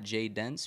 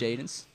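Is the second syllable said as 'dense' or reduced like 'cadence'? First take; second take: dense; reduced. First: The second syllable is a full 'dense'. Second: The second syllable is reduced, rhyming with 'cadence'. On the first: The speaker calls it wrong. "it is not Jay Dense for everybody that pronounces it incorrectly" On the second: The speaker calls it right. "It is Cadence Jadens"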